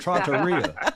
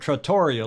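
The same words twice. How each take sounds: First: It is said with an Italian pronunciation. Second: It is said with a British English pronunciation. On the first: The speaker calls it right. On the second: The speaker calls it wrong.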